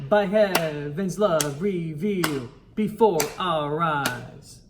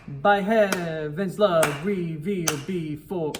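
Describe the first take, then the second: First: "revealed" held a bit longer, beats marked; correct rhythm. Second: Rushed rhythm on "revealed before"; the mistaken take of the rhythm; wrong rhythm. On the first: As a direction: count it out in time for the choir. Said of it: "do that rhythm one more time". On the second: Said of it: "ooh, I said it wrong". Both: Shown as a demonstration.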